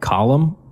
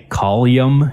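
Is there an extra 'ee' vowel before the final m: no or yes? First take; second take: no; yes. First: No extra vowel comes before the final m. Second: An extra 'ee' vowel comes before the final m. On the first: This is the usual way to say it. "instead of column" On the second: This is how people in one region say it. "people in Michigan say collium instead of column"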